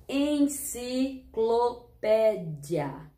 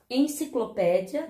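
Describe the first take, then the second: First: Very slow, syllable by syllable; drawn out; sounding out words. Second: Said in the usual way. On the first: Shown as a demonstration. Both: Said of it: "Mas vamos treinar comigo?".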